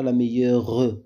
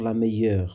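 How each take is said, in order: First: The final e is pronounced as a syllable. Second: The final e is silent. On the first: The speaker calls it wrong. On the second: The speaker calls it right.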